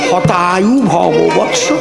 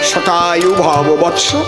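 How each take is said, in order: First: The first word begins with an H sound. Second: The first word begins with an S sound. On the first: "ওনার তো স্ব উচ্চারণ হয় না" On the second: "এর সংস্কৃত কি?"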